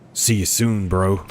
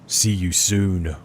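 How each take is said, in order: First: It is said in a casual bro voice. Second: It is said in a Mother Gothel voice.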